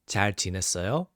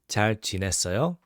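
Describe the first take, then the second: Both takes have the same delivery.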